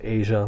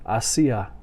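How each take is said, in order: First: It sounds like the continent name Asia. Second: It sounds different from the continent name. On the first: "like the country Asia" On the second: "I've also heard people pronounce it"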